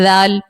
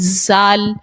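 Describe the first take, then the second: First: The consonant is soft with no whistling. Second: The consonant has a sharp whistling hiss. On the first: The speaker calls it right. "वो तो नरमी से पढ़ने वाला हर्फ है" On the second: The speaker calls it wrong. "इसी तरह जाल पढ़ती हैं"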